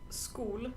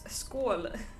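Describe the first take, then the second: First: The vowel sounds like 'oo'. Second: The vowel sounds like 'oh'. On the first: The speaker calls it wrong. "not school" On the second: The speaker calls it right. "It's pronounced å, like Omi"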